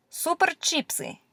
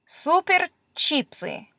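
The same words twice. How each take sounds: First: Said in the usual way. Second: Super chipsy read slowly, higher; slow careful reading. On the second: Shown as a demonstration. Teacher reading a chips packet to learners. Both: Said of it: "this lowercase n is a P".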